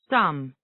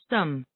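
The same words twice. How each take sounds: First: The word has a full, clear vowel. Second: The word has a reduced, weak vowel.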